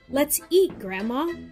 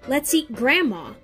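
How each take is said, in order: First: The stress falls on the word eat. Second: The stress falls on the word grandma. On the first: The speaker is calling Grandma to come and eat. "If we put the accent or the stress on the word eat, it sounds like this" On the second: The speaker wants to eat Grandma. "If you put the accent or stress on the word grandma, however, it sounds like this"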